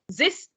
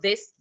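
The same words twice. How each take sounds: First: The word starts with a z sound. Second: The word starts with a th sound.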